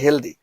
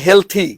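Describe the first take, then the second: First: The middle consonant is a 'd' sound. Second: The middle consonant is a 'th' sound. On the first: This is how people commonly say it. "মানুষ বলে যে হেলদি" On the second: This is how it is taught. "আমি পড়াই হেলথি"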